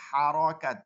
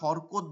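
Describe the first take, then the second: First: Each syllable has an open a sound: harakat. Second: The vowels are short o sounds: horokot. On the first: This is the proper Arabic pronunciation. "উচ্চারণটা হারাকাত" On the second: This is the everyday local way of saying it. "আমরা হরকত বলি"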